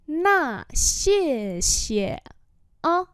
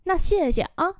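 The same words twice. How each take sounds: First: Drawn-out syllables; syllable by syllable, slowly; slow demonstration. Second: Said in the usual way. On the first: Shown as a demonstration. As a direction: model it slowly for learners. Teacher repeats phrase slowly.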